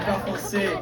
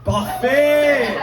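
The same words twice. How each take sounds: First: "Parfait." repeated softly, falling, in a French accent; a satisfied French "Parfait." under the breath; quiet French repeat. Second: "Parfait!" sung out high and loud with a French accent; excited French exclamation. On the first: To himself after the crowd answers, a soft French "Parfait.". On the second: To the French audience member, an excited French "Parfait!". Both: Real, not acted. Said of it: "Mon accent est terrible".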